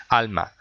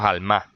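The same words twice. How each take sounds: First: "Alma" stressed on the first syllable, AL-ma. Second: "alma" wrongly stressed on the last syllable, al-MA; misplaced stress. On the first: Teacher giving the correct word after the wrong one, first-syllable stress. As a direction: put the beat on the opening A of "Alma", let the end fall. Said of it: "el golpe de voz cae en la primera A". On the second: Teacher showing how "alma" is not said, end-stressed al-MA. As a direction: push the beat of "alma" onto its final A. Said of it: "No decimos alma". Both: Shown as a demonstration.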